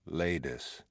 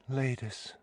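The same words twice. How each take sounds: First: Said in the usual way. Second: Ladis said much higher and softer, falling at the end; higher pleading. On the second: Acted. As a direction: lift Ladis up high, then let it fall. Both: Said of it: "she says".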